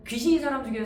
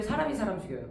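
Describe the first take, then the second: First: 귀신이 stressed, said higher and louder; stress on ghost. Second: 사람이 stressed, set against 귀신이; stress on person. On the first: Teacher mocking ghost films, stressing 귀신이. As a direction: lean on 귀신이 to set up the contrast. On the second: Teacher telling students people kill, stressing 사람이. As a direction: punch 사람이 as the real threat. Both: Shown as a demonstration.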